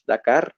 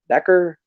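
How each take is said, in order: First: It is said with a Spanish pronunciation. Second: It is said with an English pronunciation.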